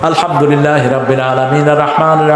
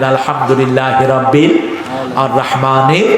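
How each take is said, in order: First: It is recited quickly, running verses together. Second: It is recited slowly, pausing after each verse. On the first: The speaker calls it wrong. "তুমি দৌড়াও কেন?" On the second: The speaker calls it right. "আস্তে আস্তে পড়তেন ... থেমে থেমে পড়তেন"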